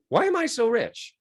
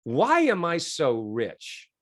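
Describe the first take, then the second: First: Higher repeated question. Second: Slow trial question. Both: Shown as a demonstration. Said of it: "And then I said".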